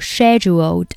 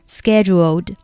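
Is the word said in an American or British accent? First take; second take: British; American. First: It is said with a British pronunciation. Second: It is said with an American pronunciation. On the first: "英式发音叫scheduled" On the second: "美式发音叫scheduled"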